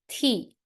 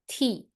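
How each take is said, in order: First: The pitch falls sharply from high. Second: The pitch falls sharply from high.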